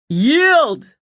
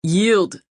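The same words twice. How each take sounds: First: Much higher, louder demand; shouted command. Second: Earnest, pressing plea; imploring. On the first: Owen shouting down at the king, commanding. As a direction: hurl it back at him. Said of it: "Owen shouted back". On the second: Owen begging the king to surrender, imploring. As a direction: urge him to give in. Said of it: "Owen implored". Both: A narrator's reading.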